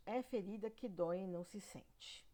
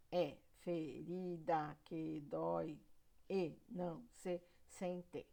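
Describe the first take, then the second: First: Said in the usual way. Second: "É ferida que dói e não se sente" slowly chopped into syllables; sílaba por sílaba. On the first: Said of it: "Outro verso". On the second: Shown as a demonstration. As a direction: split every syllable apart, evenly and slowly, down to "sen-te". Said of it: "Eu dividi todas as sílabas". (verso escandido devagar, sílaba por sílaba)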